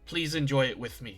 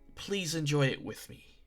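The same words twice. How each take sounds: First: It sounds like a blunt command. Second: It sounds like a friendly, inviting request.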